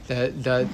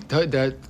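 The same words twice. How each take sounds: The two takes are said the same way.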